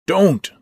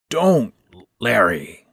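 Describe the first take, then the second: First: Loud, high, startling cry of Don't; sudden shout. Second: Calmer plea. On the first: Old stepfather shouting to stop Larry leaving, sudden loud shout. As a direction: bark it out to stop him leaving. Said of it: "Ben shouted loudly enough to startle me". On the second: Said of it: "more calmly this time after the coughing". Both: A narrator's reading.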